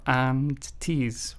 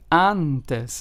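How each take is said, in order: First: The first vowel is not an open 'ah'. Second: The first vowel is an open 'ah' sound. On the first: The speaker calls it wrong. "and not and-tes" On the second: The speaker calls it right. "It is pronounced as antes"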